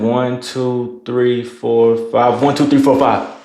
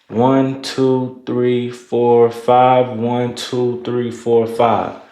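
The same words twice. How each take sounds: First: The counting abruptly jumps to a fast pace. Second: The counting speeds up gradually and evenly.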